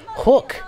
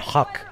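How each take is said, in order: First: The vowel sounds like 'oo', as in 'book'. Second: The vowel sounds like 'uh', as in 'huck'. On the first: This is how people in this country say it. The speaker calls it right. "say hook in this country" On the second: This is how someone from another country says it. The speaker calls it wrong. "you pronounced it like a like a weirdo from another country"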